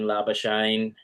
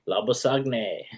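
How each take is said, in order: First: The name is given an anglicized pronunciation. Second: The name is given its Afrikaans pronunciation. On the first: The speaker calls it wrong. "I don't know why they still call him Labuschagne" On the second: The speaker calls it right. "Just say his name right"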